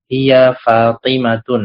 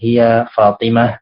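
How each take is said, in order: First: The name ends with a nasal tun sound. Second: The name ends with a silent-vowel h sound. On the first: "Nah, ini salah" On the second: "dalam percakapan ... mensukunkan akhirnya"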